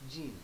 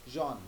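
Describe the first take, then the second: First: The name is said with an English pronunciation. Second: The name is said with a French pronunciation. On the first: The speaker calls it wrong. "not Jean" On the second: The speaker calls it right. "in French, it is actually pronounced as Jean"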